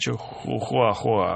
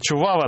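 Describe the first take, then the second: First: The word is said with clear h sounds. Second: The word is said without any h sounds. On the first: This is how it is said elsewhere. The speaker calls it wrong. "а не чухуахуа" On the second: This is how it is said in Texas. The speaker calls it right. "чувава надо говорить"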